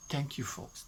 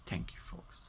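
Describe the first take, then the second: First: Said in the usual way. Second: Breathy whisper, much softer, fading away; whispered thanks. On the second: Real, not acted. Thanking the folks at her brother's service, fading to a whisper. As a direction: let the thanks dissolve into a whisper.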